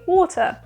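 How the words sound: The word is said with a British accent. "But I say water"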